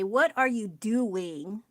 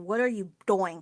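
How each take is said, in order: First: Doing is said normally, rhyming with chewing. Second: Doing is said to rhyme with boing. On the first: "How come when you say" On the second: "So how come we don't say"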